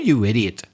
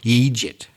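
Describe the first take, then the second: First: The word is said with standard English pronunciation. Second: The word is said with Irish pronunciation. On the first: "in standard English, you would just say" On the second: "much more common and natural if you're Irish to say"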